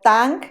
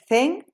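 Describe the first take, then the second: First: The name is said with Spanish-style sounds. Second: The name is said with Mandarin-style sounds. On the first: "castellanizado pues sería el premio Tang" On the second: "me parece que la pronunciación correcta es Zheng"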